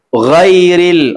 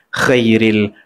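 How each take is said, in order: First: The first gh sound is clear and distinct. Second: The first sound wavers between kh and gh. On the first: "itu keluar dan jelas" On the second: "keluar tapi tak safi, tak jelas"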